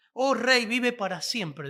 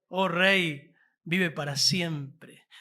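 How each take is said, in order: First: Respectful address. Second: "vive para siempre" drawn out very slowly, each word weighed; slow reverent address. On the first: Retold or imitated. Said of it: "No, no dijo así". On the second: Shown as a demonstration. Preacher savours Daniel's respectful words to the king, slowly. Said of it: "cuando va ahí".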